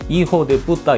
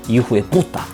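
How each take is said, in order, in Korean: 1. 무덤덤하게 들립니다. 강한 강세가 없습니다. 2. 화난 듯 들립니다. 'pu'에 강한 강세가 있습니다. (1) "그냥 이호대 뿌다 이렇게 하면은 타격감이 전혀 없죠" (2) "뿌에다가 발음 그 강세를 둬야 됩니다... 화난 감정이 상대한테 아주 잘 전달이 됩니다"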